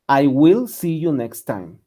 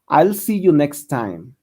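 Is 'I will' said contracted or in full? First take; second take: full; contracted. First: 'I will' is said as two full words. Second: 'I will' is contracted into one syllable. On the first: "O también lo puede pronunciar como will" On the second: "se pronuncia como I'll"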